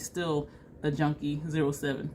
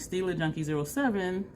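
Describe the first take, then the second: First: The first part sounds like the words still a. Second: The first part sounds like the brand Stila. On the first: The name means the speaker is still a junkie. "I would say Still a Junkie zero seven" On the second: The name refers to the Stila Cosmetics brand. "instead of saying Stila Junkie zero seven"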